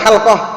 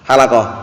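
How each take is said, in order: First: The l and q sounds come directly together. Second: An extra vowel separates the l and q sounds. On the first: It means a study circle. The speaker calls it right. "Yang benar apa?" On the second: It means barbers. The speaker calls it wrong. "Halakoh padahal tukang cukur artinya"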